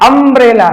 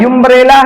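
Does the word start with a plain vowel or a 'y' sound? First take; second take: plain vowel; y sound. First: The word begins with a plain vowel sound. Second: The word begins with a 'y' sound. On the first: The speaker calls it right. "ये क्या है? अम्ब्रेला।" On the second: The speaker calls it wrong. "युम्ब्रेला है? नहीं"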